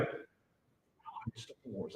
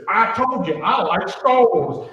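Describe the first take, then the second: First: Very soft, slow whisper; imitated shy little girl whisper. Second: Louder, slow and insistent; imitating a proud girl, much louder; proud declaration. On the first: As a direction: barely breathe it out, slowly, like a secret. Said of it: "And she went". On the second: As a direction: announce it proudly to prove the point. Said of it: "And she goes".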